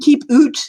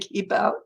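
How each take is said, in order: First: The vowel in out sounds like oot. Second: The vowel in out sounds like ow. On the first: "that's Canadian" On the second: "instead of"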